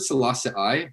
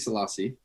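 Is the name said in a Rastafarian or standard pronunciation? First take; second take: Rastafarian; standard. First: The name has a Rastafarian-style pronunciation. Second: The name has a standard English pronunciation. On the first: "it's like a Rastafarian pronunciation" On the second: "I think Selassie"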